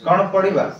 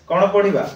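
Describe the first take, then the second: The two takes are said the same way.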